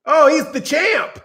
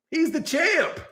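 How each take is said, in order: First: Drawn out and pushed, slow; mock eager praise. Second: Softer, higher, in an odd voice; quiet put-on echo of the praise; hushed put-on echo. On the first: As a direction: praise him like a proud parrot. Mock fighter repeating praise. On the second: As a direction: echo it back meekly. Repeat in another voice.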